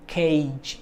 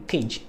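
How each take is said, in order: First: CAGE with a long e gliding to i; gliding diphthong. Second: CAGE with one short e, like "kedge"; short pure vowel. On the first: Teacher giving students the correct form, long gliding CAGE. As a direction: draw out both vowels in CAGE. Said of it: "but it's gonna be cage". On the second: Teacher showing the mistake to avoid, short pure-vowel CAGE. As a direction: say CAGE quickly with no glide. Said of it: "It's not gonna be cage". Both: Shown as a demonstration.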